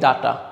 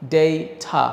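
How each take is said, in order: First: It is said in a Bengali-style accent. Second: It is said in a British accent. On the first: The speaker calls it wrong. "এটা আমরা কিন্তু বলি ডাটা" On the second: The speaker calls it right. "এটার উচ্চারণ হচ্ছে ডেইটা"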